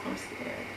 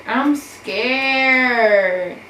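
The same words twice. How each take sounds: First: Much softer, breathy whispered "scared". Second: Louder, higher cry of "scared"; panicked cry. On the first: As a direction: barely voice it, frightened. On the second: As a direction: blurt it out in rising panic. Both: Real, not acted.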